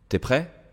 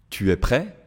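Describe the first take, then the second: First: The vowel of tu is dropped before es. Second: The vowel of tu is fully pronounced. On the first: This is casual, informal speech. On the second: This is the standard, formal form.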